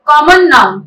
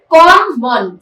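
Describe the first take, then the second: First: Said in the usual way. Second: कॉमन split into "com" and "mon"; syllable by syllable. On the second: Shown as a demonstration. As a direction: say कॉमन as two separate beats, com - mon. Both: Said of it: "break कर करके जो ma'am बोल रही हैं".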